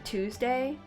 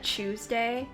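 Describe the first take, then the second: First: The word begins with a clear t sound. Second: The word begins with a ch sound. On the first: "I think I say Tuesday. T W O" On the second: "And not Tuesday?"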